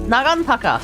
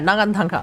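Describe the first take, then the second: First: There is no n sound before the final ka. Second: An extra n sound comes before the final ka. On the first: The speaker calls it right. "I'll pronounce it in Japanese" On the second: The speaker calls it wrong. "I keep adding an extra N in there"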